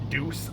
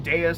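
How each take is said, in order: First: The name sounds like the word deuce. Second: The name sounds like day-us. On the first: "I often just pronounced as Deuce. I know that's wrong" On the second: "I've gotten way more used to calling him Deus"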